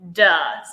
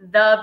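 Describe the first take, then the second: First: It begins with a hard 'd' sound. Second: It begins with a soft 'th' sound. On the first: The speaker calls it right. "but it's it's duh" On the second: The speaker calls it wrong. "Some people call it the Beauty League"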